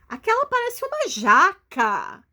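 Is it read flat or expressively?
expressively. It is read with lively, expressive intonation.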